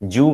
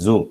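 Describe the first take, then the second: First: The word begins with a j sound. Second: The word begins with a voiced z sound. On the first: The speaker calls it wrong. "they pronounce this z sound as j" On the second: The speaker calls it right. "But actually it is zoo"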